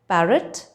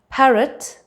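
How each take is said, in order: First: The p is released without a puff of air. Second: The p is released with a puff of air. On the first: "Instead of saying parrot" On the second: "I would say parrot"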